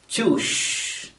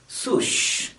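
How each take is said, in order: First: The word begins with a ch sound. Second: The word begins with an sw sound. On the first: "pronounce the word as choosh" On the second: "or at least swoosh"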